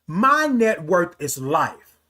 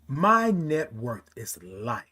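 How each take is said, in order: First: It is said loudly, with raised volume. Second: It is said at a normal, moderate volume.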